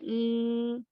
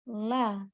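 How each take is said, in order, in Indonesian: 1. L ditahan lalu dipotong. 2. L dilepaskan menjadi vokal penuh. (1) "Kalau misalnya la tidak lepas... Jadi l, hanya sampai segitu saja" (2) "setelah keluar dia akan terlepas. Terlepas, contoh la"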